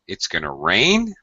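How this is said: The voice rises at the end. The speaker is unsure, almost asking a question. "if I use rising intonation or final rising intonation"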